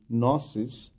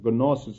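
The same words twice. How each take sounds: First: The initial G sound is silent. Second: The initial G sound is pronounced. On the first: It follows the usual English pronunciation. "in the English language, the G is not pronounced, so it would be gnosis" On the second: It follows the original Greek pronunciation. "I am purposely pronouncing it as a gnosis"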